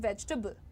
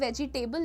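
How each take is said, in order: First: The word is said with three syllables. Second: The word is said with four syllables. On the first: The speaker calls it right. "The pronunciation is वेजिटेबल" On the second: The speaker calls it wrong. "वेजिटेबल वेजिटेबल ना कहिए"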